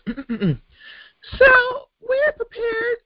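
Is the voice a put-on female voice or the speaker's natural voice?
female. It is said in a put-on female voice.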